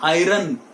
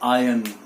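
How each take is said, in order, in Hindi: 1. r की आवाज़ साफ़ सुनाई देती है। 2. r की आवाज़ सुनाई नहीं देती। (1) "It is not iron" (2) "R is silent"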